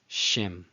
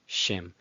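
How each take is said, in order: No difference in how they are said.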